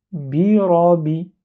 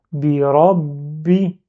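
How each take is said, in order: First: "Birabi" slowly, the last b light and single; without shadda. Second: "Birabi" very slowly, the last b held shut before the i bursts out; blocked ba. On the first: Teacher repeats the word composed from three letters, "Birabi" without doubling. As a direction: read "Birabi" with long vowels and no stop on the b. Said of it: "Le mot que je viens de composer là". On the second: Teacher shows something at the end, "Birabi" with a blocked b. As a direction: double the b in "Birabi", stopping on it as in rabbi. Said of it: "comme si je bloque le ba avant de prononcer".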